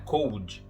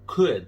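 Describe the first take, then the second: First: The O and L are both pronounced. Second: The O and L are left silent. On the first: The speaker calls it wrong. "Não é cold" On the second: The speaker calls it right. "esse O e esse L são meio que esquecidos"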